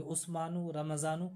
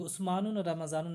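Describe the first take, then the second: First: उस्मानु and रमज़ानु ending in a short u; no tanween. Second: उस्मानुन and रमज़ानुन with an added -un; wrong tanween. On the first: Teacher gives students the correct names, उस्मानु without tanween. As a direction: leave उस्मानु, रमज़ानु open, dropping the n. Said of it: "ये कहेंगे". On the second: Teacher shows students what not to say, उस्मानुन with tanween. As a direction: end both उस्मानुन and रमज़ानुन on a sounded n. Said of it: "नहीं कहेंगे". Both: Shown as a demonstration.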